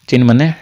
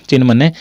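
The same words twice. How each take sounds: No difference in how they are said.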